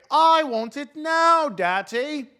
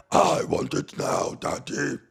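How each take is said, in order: First: Put-on high, slow whiny spoiled-girl voice; spoiled brat girl. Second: A hint of a Cookie Monster voice, breathy and slow; lightly voiced Cookie Monster. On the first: Comic mocks a pundit as a bratty rich girl, high and whiny. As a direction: whine it like a bratty little girl. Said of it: "looks like the little spoiled girl". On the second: Comic mocks the pundit's voice, a touch of Cookie Monster. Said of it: "he sounds like Cookie Monster".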